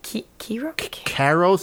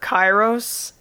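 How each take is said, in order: First: The first vowel sounds softer and lighter. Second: The first vowel sounds harder and fuller. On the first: The speaker calls it right. "It's a softer I" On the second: The speaker calls it wrong. "I was calling her Kairos"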